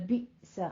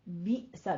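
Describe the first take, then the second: No difference in how they are said.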